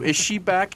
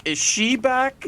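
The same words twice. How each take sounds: First: Said in the usual way. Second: Slower, higher mock-worried "Is she back?"; mock dramatic. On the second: Shown as a demonstration. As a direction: ham up the worry, drawn out.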